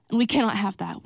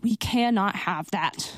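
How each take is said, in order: First: Said in the usual way. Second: Slower, with cannot stressed. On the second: Shown as a demonstration. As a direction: lean hard on cannot, slowly.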